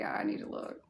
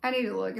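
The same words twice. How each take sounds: First: "I need to look" whispered to herself; "I need to look" breathed out in a whisper. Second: Said in the usual way. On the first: Shown as a demonstration.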